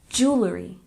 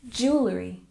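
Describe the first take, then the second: Both takes have the same delivery.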